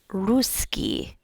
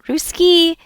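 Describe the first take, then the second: First: The stress is on the first syllable. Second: The stress is on the second syllable. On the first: The speaker calls it right. "You have that emphasis on the U sound" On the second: The speaker calls it wrong. "it's not Ruski"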